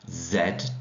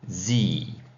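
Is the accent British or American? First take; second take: British; American. First: It is said with a British accent. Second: It is said with an American accent.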